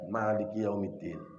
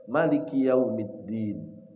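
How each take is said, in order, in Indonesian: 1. Vokal pertama dari Maliki itu panjang. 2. Vokal pertama dari Maliki itu pendek. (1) "Asim baca panjang" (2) "dibaca pertama baca pendek"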